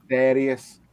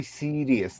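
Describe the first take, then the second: First: "Serious" with short e, like "serry-us"; Liverpool pronunciation. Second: "serious" with long ee, SEER-ee-us; long vowel. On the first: Friend demonstrates Liverpool speech, "Serious" with short e. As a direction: say "Serious" as SERR-ee-us. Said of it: "it's fucking Liverpool". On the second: Friend shows the non-Scouse form, "serious" with long ee. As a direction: say "serious" with a drawn ee. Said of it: "don't do the long". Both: Shown as a demonstration.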